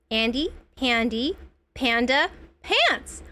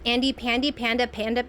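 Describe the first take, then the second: First: Each of Andy, Pandy, Panda, Pants set apart; slow, careful retry. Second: Said in the usual way. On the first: Real, not acted. Careful retry of tongue-twister name.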